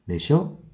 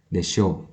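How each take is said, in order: First: The word is said with a rising pitch. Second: The word is said with a low pitch. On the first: The speaker calls it wrong. "jangan sampai intonasinya naik ya, jangan sampai mengucapkannya desho" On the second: The speaker calls it right. "pengucapan desho harus dengan intonasi rendah ya"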